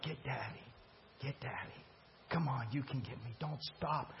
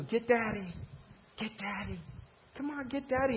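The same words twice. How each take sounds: First: Much softer, gentle lowered coaxing. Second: Put-on high, teasing call to a toddler; playful coaxing. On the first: Retold or imitated. Jesus quietly urging the woman on, soft and gentle. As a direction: lure her in tenderly, almost under the breath. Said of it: "He's like". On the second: Dad coaxing his kids to chase him, high and playful. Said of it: "What do you do?".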